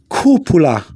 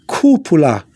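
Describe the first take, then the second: The two takes are said the same way.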